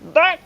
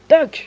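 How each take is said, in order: First: It is said in a put-on character voice. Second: It is said in the reader's normal voice.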